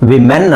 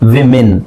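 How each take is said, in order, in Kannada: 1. ಎರಡನೇ ಉಚ್ಚಾರಾಂಶ 'men' ತರ ಕೇಳಿಸುತ್ತೆ. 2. ಎರಡನೇ ಉಚ್ಚಾರಾಂಶ 'min' ತರ ಕೇಳಿಸುತ್ತೆ. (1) "ವಿಮೆನ್ ಅಲ್ಲ"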